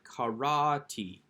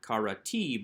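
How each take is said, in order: First: The stress is on the middle syllable. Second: The stress is on the final syllable. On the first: The speaker calls it right. "We don't put the accent on the final syllable" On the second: The speaker calls it wrong. "not karati"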